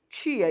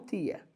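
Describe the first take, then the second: First: The t is palatalized, sounding like ch. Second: The t is a plain t, not palatalized. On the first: This is how the speaker's own dialect says it. "eu vou fazer um processo de palatalização" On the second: This is how some other dialects say it. "e não"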